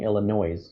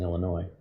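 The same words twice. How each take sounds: First: The word ends with an audible s sound. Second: The word ends without any s sound. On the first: Someone from outside the state said it. The speaker calls it wrong. "they kept saying Illinois" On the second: A local would say it this way. The speaker calls it right. "there's no noise in Illinois"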